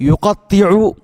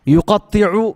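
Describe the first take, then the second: The two takes are said the same way.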